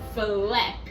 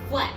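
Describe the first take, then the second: First: The word is drawn out slowly across the movement. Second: The word is said quickly in one short beat. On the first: "I still pronounce it very slowly" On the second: "I don't say like flap"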